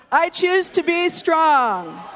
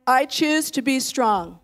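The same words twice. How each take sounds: First: Louder and higher, slow and strong; stronger declaration. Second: Firm and slow, a strong declaration. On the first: Pastor urging the church to say it stronger, loud proclamation. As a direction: proclaim it with full force. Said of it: "That wasn't strong. Say it stronger". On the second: Pastor leading the church, firm strong declaration. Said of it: "say it in your strongest voice". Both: Shown as a demonstration.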